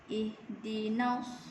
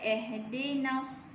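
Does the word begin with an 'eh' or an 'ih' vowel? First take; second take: ih; eh. First: The first vowel is a close 'ih' sound. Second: The first vowel is an open 'eh' sound. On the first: The speaker calls it right. "yang betul dia ialah ih" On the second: The speaker calls it wrong. "Jangan baca eh dinas. Salah"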